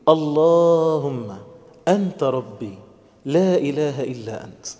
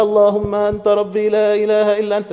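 First: Slow prayer, phrase by phrase with pauses; gentle and unhurried. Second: Higher, chanted in one run without pauses; rattled-off recitation. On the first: Preacher showing how to dwell on the meanings, gentle and unhurried. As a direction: draw out the first word, then pause after each phrase. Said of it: "عايز بس بالراحة كده أقف على شوية معاني". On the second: Preacher showing youths how not to say the prayer, rattled off. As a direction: recite it by rote in one high, even run. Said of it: "مش عايزكم تقولوها زي ما بنعملها كده". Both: Shown as a demonstration.

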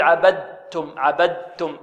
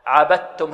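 First: عبدتم as "abad-tum"; wrong audible dal. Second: عبدتم as "abat-tum"; correct pure ta. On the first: Teacher has pupils hear the mistake, voiced d. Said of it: "سمعتم الآن صوت الدال". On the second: Teacher confirms the right reading for pupils, pure doubled t. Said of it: "عبدتم هكذا". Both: Shown as a demonstration.

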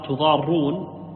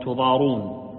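First: تضارون with a doubled, held r. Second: تضارون with a single, light r; lightened r. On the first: Teacher reads the hadith variant, تضارون with doubled r. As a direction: stretch تضارون slowly on a double r. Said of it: "بالتشديد". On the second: Teacher shows the lighter variant, تضارون with single r. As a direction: say تضارون with the r not doubled. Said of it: "وتروى بالتخفيف". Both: Shown as a demonstration.

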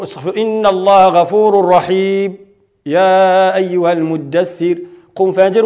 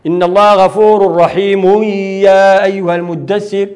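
First: Slow Quranic recitation, brief silent pause without breath between غفور رحيم and يا أيها المدثر; recited with sakt pause. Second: Slow Quranic recitation, رحيم flowing straight into يا أيها المدثر with no pause; recited with wasl. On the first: Teacher demonstrating sakt between two surahs, slow recitation. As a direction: chant it slowly, cut the sound briefly at رحيم before يا أيها. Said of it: "ثم قرأ أيضًا بالسكت ما بين المزمل والمدثر".

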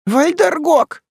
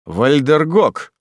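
First: High, loud cry of dread; frightened, high-pitched exclamation; alarmed woman. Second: Slow, drawn-out repeat of the name; measured, wondering repetition; young man repeating. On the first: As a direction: gasp the name out in a high woman's voice. Маас в страхе крестится, повторяя название. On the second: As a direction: echo the name slowly in a man's natural register. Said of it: "повторил Арденер". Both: A narrator's reading.

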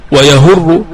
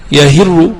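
First: ويهر with a u after the ه, "wa-yahurru"; slow, careful "wa-yahurru" for ويهر; damma variant. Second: يهر with an i after the ه, "yahirru"; slow, careful "yahirru" for يهر; kasra variant. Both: Shown as a demonstration. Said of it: "سمعت بالوجهين".

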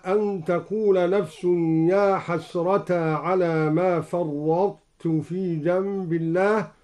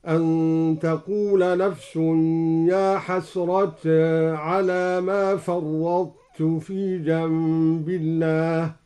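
First: Slow, chanted tajweed recitation; Quran recitation. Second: يا حسرة with the alif leaned halfway toward e; slow recitation tilting حسرة's vowel toward e; taqlil on يا حسرة. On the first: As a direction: recite with measured melody. Recites verse before demo. (تلاوة مجودة) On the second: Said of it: "قرأ الدوري بتقليل يا حسرة هكذا". (تقليل يا حسرة بين الفتح والإمالة) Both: Shown as a demonstration.

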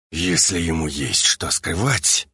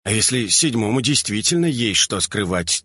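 First: Low, slow menace through gritted teeth. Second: Said in the usual way. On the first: A narrator's reading. Alpha pins his brother by the throat, seething through teeth. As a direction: force it out slowly between clenched teeth. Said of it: "процедил Альфа сквозь зубы".

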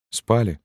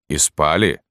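First: High, small woman's voice; widow answering. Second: Firm question in the sergeant's voice. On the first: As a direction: answer meekly, pitched up. (высокий робкий ответ вдовы) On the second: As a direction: ask it squarely, without raising the voice. (вопрос сержанта, твёрдым голосом) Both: A narrator's reading.

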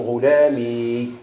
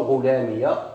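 First: "غلامي" with a long drawn-out final ee; ending in kasra. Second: "غلامية" said ghulami-ya, with an open a at the end; ending in fatha. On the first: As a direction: stretch the end of "غلامي" as ghulamiii. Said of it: "مبني على الكسر". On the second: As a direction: add a voweled ya to close "غلامية". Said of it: "مبني على الفتح". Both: Shown as a demonstration.

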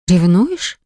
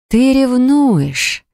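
First: Light rising question; surprised question. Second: High, slow triumphant certainty; confident, delighted. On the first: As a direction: ask it in disbelief. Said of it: "выдохнула удивлённо". (удивлённый вопрос) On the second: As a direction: say it sure and gleeful. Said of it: "произнесла уверенно". (уверенно и радостно) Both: Acted.

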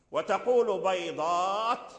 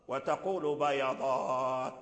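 First: بيضات as bay-ḍāt, yā without a vowel; slow بيضات, closing the first syllable on the yā; silent yā. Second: Slow, lower بيضات as ba-ya-ḍāt; opened yā. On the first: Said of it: "وإسكان الو-، الياء". (بيضات بإسكان الياء) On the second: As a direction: give the yā in بيضات a short a and hold the last ā. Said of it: "فتح الياء". (بيضات بفتح الياء) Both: Shown as a demonstration.

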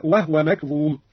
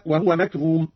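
First: وهو said as wahwa, ha unvowelled; silent ha. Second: Said in the usual way. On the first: Shown as a demonstration. Teacher demonstrates Qalun's silent ha. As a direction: keep the ha of وهو closed. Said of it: "هكذا". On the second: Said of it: "أسكن الهاء قالون".

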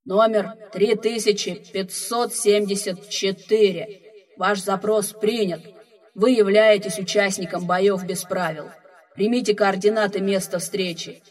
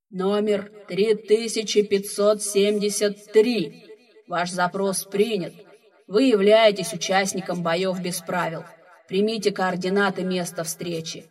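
First: Another booming voice over the loudspeakers; slow, loud station announcement; second speaker voice. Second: Heavy booming voice from the speakers; slow, loud, echoing announcement; echoing ethereal energy being. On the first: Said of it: "второй голос из громкоговорителей". (второй гулкий голос из громкоговорителей) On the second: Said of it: "тяжёлый гулкий голос, вещающий из динамиков". (тяжёлый гулкий голос из динамиков) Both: Acted.

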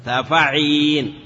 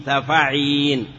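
Both takes have the same delivery.

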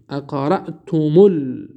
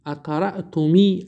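First: اقرأتم ال- said slowly as aqra'tumul, mim carrying u; correct damma link. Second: اقرأتمی said aqra'tumi, mim wrongly ending in i; wrong kasra ending. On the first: Teacher showing students the right damma link, slow and careful. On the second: Teacher giving students the wrong form, a wrong kasra ending. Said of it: "نه". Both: Shown as a demonstration.

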